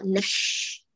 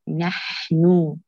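First: The h sound is pushed hard and exaggerated. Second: The h sound is soft and lightly breathy. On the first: The speaker calls it wrong. "لا تشدي على الحاء وتحكيها بمبالغة" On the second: The speaker calls it right. "هات البحة دون تكلف"

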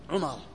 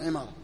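First: The first vowel is a rounded u. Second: The first vowel is a front i. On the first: The name belongs to one of the narrators. "ينطق بالضم عمارة" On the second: The name belongs to the companion's father. "وإذا كسر"

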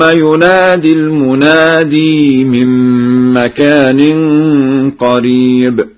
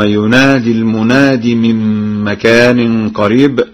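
First: The final long vowel of al-munadi is kept. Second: The final long vowel of al-munadi is dropped.

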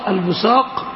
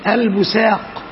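First: The middle consonant is an emphatic s sound. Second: The middle consonant is a plain s sound. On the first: "الأولى بالصاد" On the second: "والثالثة بالسين"

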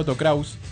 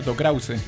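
First: The final e of Krause is silent. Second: The final e of Krause is pronounced. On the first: The speaker calls it wrong. "yo le decía Otto Krause y me dijeron que no" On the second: The speaker calls it right. "la E como que se pronuncia al final"

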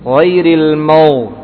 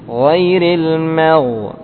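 First: The m sound is thick and heavy. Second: The m sound is thin and light. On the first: The speaker calls it wrong. "kadang demikian. Padahal dia dibaca tipis" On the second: The speaker calls it right. "dibaca tipis"

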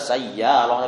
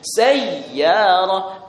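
First: The doubled y is said lightly, not pressed. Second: The doubled y is pressed and held firmly. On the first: The speaker calls it wrong. "bukan sekedar sayyarah" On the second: The speaker calls it right. "jadi tekan, ... tapi sayyarah"

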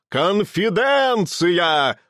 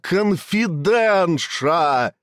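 First: The ending is pronounced with a 'ts' sound. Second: The ending is pronounced with a 'sh' sound. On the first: The speaker calls it right. "Понимаешь меня?" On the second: The speaker calls it wrong. "Что за конфиденша?"

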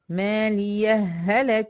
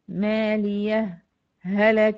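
First: The words merge with no pause between them. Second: A brief pause separates the two words. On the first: "ممكن ما أعملش سكت وأضغم" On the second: "إظهار مع السكت، وهو الوجه المقدم"

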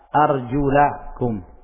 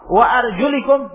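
First: The vowel after the L is an 'a'. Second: The vowel after the L is an 'i'. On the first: The feet are to be washed. "Itu kalau lamnya di fathah" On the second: The feet are to be wiped. "tapi kalau di kasrah"

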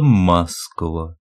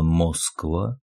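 First: It is pronounced the local spoken way. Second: It is pronounced just as it is spelled. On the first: This is how locals actually say it. "произносится «Москва»" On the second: This is how the word is written. "Пишется «Москва»"

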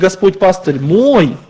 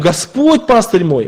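First: The stress falls on the word мой. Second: The stress falls on the word Господь. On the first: He is mine and not someone else's. "Он мой, а не чей-то" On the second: It is the Lord and no one else who is the shepherd. "именно Господь, а не кто-то пастырь наш"

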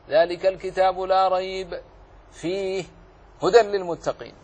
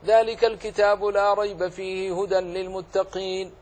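First: There are pauses after both rayb and fihi. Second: It is recited straight through without any pause. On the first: The speaker calls it wrong. "الممنوع ها هنا أن تقف على الاثنين" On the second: The speaker calls it right. "ولم تقف على أي أحد منهما جاز لك"

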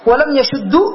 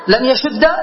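First: The verb ends with a short u vowel. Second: The verb ends with a short a vowel. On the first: It copies the vowel before it. "على الإتباع، إتباع حركة الشين" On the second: It uses the lightest vowel. "لأن الفتح هو يعني أخف الحركات"

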